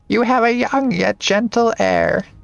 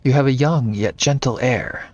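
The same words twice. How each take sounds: First: It is read in a put-on old lady voice. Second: It is read in the speaker's natural voice.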